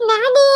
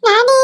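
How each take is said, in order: First: High tearful call of the name; crying call. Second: Loud rising call of a name. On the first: Child crying after the man as he leaves. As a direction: cry his name out. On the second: Child calling loudly after the leaving man. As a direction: call out after him as he goes. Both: Acted.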